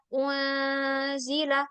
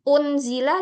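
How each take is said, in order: First: The n sound is blurred into a nasal sound. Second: The n sound is pronounced fully and clearly. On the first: The speaker calls it right. "Kita eh, samarkan bacaannya" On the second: The speaker calls it wrong. "Bukan unzila"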